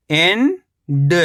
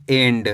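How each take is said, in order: First: एंड as long rising "en", pause, "da"; split syllables. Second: Said in the usual way. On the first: Shown as a demonstration. Teacher breaking down एंड for learners, split syllables. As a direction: stretch एंड into two separate syllables. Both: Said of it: "तो मिलके बन जाएगा".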